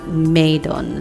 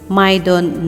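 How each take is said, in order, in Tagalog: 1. Tunog 'may' ang unang pantig. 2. Tunog 'my' ang unang pantig. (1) "not Maydon" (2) "My for my, Don for Donnie. My Don"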